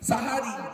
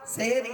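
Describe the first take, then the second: First: The first vowel is an open a sound. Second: The first vowel is an e sound. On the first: The speaker calls it right. "শব্দটা সাহারি" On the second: The speaker calls it wrong. "সেহরি নয়"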